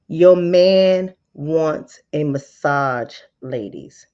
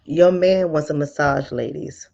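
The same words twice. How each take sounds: First: Very slow, louder sales line; slow, pointed pitch; slow emphatic pitch. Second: Said in the usual way. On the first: Shown as a demonstration. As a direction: drag it out to sell it. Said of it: "slower repeat". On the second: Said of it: "sales pitch".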